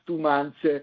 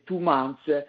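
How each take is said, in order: Both takes have the same delivery.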